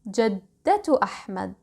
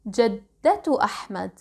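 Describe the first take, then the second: First: The first word ends with a t sound. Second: The first word ends with a t sound.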